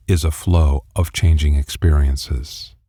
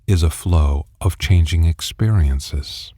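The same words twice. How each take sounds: The two takes are said the same way.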